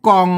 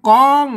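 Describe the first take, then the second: First: The word is said with a low tone. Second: The word is said with a mid level tone. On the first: "เสียงเอกนะครับ" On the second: "เสียงสามัญนะครับ"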